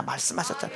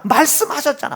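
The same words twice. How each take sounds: First: 말씀하셨잖아 repeated unvoiced and much softer; whispered repeat. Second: Said in the usual way. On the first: Shown as a demonstration. Preacher echoing the refrain to the congregation in a whisper. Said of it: "repeats 말씀하셨잖아". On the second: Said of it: "same word".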